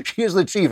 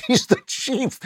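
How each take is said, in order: First: "is" punched, rest plain; stress on is. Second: High, slow, laughing punchline. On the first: Shown as a demonstration. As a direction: hit the word "is". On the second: Real, not acted. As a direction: laugh out the line. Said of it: "She's not just one of the Indians".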